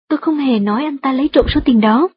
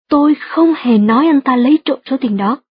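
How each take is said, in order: First: No word is given special stress. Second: The stress falls on the words không hề. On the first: It is a simple statement. "Đây chỉ là một câu trần thuật đơn giản" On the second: The speaker fully denies ever having said it. "nếu bạn nhấn mạnh từ không hề trong câu"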